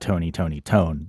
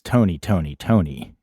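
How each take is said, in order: First: The last word ends without an 'ee' vowel. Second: The last word ends with an 'ee' vowel. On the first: The speaker calls it wrong. "not Tony Tony Tone" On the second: The speaker calls it right. "you pronounce that as a hard E"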